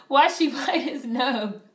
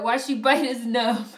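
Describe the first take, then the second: First: Mock quoting chat. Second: Playful repeat of the chat line, stressing "bite"; mock quoting chat. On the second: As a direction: tease the question back, punching "bite". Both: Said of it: "Why did you say it like that?".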